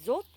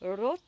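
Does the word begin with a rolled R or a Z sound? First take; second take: Z; rolled R. First: The first sound is a buzzing Z. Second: The first sound is a slightly rolled R. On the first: "je le dis comme un Z" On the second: "certaines personnes vont le rouler un petit peu"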